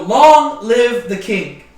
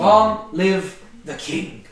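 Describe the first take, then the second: First: Slow, louder cheer, "long" stretched out; mock royal acclamation. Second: "Long live the king" drawn out slowly, LONG stretched; slow proclamation. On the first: Teacher voicing the crowd hailing the king, slow loud cheer. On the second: Shown as a demonstration. Teacher translating the Hebrew, slow drawn-out proclamation.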